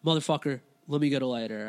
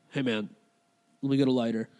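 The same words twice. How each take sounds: First: Lightly voiced irritated stranger; impatient demand. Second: Low, casual mumble with a halting start; dazed stranger. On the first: Bleeding man insists on a lighter, mildly impatient. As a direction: press the request with mock impatience. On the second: Retold or imitated. Bleeding man asks a stranger for a light, dazed. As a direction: ask lazily, as if nothing is wrong.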